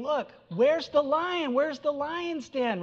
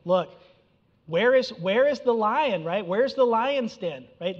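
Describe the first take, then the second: First: High, slow, sneering taunt of a fallen enemy; preacher voicing a prophet mocking a fallen city, high and sneering. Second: Mild mocking taunt. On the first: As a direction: jeer at them in a high, drawn-out voice. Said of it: "He's mocking them". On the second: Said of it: "the idea here is he's saying".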